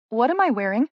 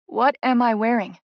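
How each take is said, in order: First: Puzzled question. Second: What am I wearing with WHAT pressed hard and falling; more insistent repeat. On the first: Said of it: "first asking, confused". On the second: Bride to Tess, demanding an answer, firm stress on What. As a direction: press it again, firmer, hitting What. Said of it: "I say again". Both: A narrator's reading.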